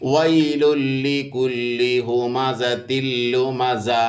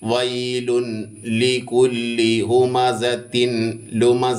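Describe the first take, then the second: First: The n merges fully into the following l. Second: An n sound is heard before each l. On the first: The speaker calls it right. "ഓതേണ്ടത് ഇങ്ങനെയാണ്" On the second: The speaker calls it wrong. "എന്നല്ല ഓതുക. അങ്ങനെയല്ല ഓതുക"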